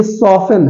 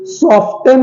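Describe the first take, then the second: First: सॉफन with no T, "sof-en"; silent T. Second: सॉफ्टन with T sounded, "sof-ten"; wrong pronunciation. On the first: Teacher giving the correct form, silent T. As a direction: drop the T from सॉफन. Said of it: "ये सॉफन है". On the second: Teacher showing the mistake, wrong pronunciation. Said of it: "सॉफ्टन नहीं है". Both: Shown as a demonstration.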